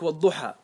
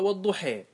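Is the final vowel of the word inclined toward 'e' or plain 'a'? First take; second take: plain a; toward e. First: The final vowel is a plain open 'a'. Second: The final vowel is inclined toward 'e'. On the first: The vowel follows its own origin without adjustment. "الألف في الضحى هل تستحق الإمالة؟ لا تستحق الإمالة" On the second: The vowel is adjusted to match the surrounding verse endings. "مع ذلك قرأ بعض القراء والضحي"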